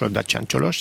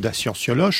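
First: The name is pronounced the Romanian way. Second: The name is pronounced the French way.

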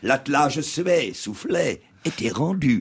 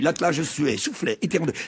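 First: Each word is pressed on for pretty effect. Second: The words are said simply without pressing.

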